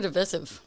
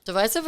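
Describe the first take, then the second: First: "divisive" with a short I, di-VISS-iv; short-I pronunciation. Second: "Divisive" with a long I, di-VY-siv; long-I pronunciation. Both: Shown as a demonstration. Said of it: "Divisive or divisive".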